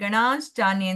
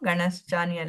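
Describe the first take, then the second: First: The vowel after the 'n' sound is long. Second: The vowel after the 'n' sound is short. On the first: The speaker calls it right. "ಗಣಾಶ್ಚಾನ್ಯೆ ಅಂತ ಉಂಟು" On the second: The speaker calls it wrong. "ಗಣಶ್ಚಾನ್ಯ ಅಲ್ಲ"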